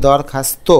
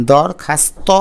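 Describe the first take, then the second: First: দরখাস্ত ending in a close "to"; rounded final vowel. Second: দরখাস্ত ending in an open "taw"; open final vowel. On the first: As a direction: say দরখাস্ত as dawr-khas-to. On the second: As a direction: say দরখাস্ত as dawr-khas-taw. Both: Shown as a demonstration. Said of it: "আমরা কিন্তু দরখাস্ত বলি".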